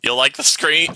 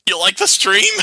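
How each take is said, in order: First: "screen" said instead of "stream", a quick rise; tripped-up "screen"; slip of the tongue. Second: "stream" said carefully, much higher and louder; emphatic correction on "stream"; corrected word. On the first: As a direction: flub the word "screen" casually. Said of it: "I choked on my words". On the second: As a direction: fix it, landing "stream" clearly. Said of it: "my pronunciation is slipping". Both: Real, not acted.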